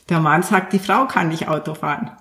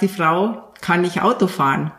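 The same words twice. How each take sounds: First: "Frau" stressed, "der Mann sagt" set off as an aside. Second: "Auto" stressed, falling tune, plain statement. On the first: Guest demos the second reading, stress on "Frau". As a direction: lean on "Frau" so the woman says it. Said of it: "als wenn der Mann sagt". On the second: Guest demos the man saying it, stress on "Auto". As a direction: state it flat, weight on "Auto". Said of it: "ist auch eine andere Betonung". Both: Shown as a demonstration.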